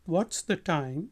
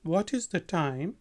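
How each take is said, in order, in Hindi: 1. What और is एक ही अक्षर में जुड़ जाते हैं। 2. हर शब्द पूरा और अलग-अलग बोला जाता है।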